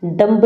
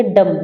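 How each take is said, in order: First: डम्ब with the b sounded, the wrong way; डम्ब as the form not to use; wrong pronunciation. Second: डम with no b sound; डम, b left silent. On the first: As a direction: say डम्ब ending on a clear b. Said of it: "डम्ब नहीं बोलेंगे". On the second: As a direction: say डम and stop on the m. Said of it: "इसको बोलेंगे डम". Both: Shown as a demonstration.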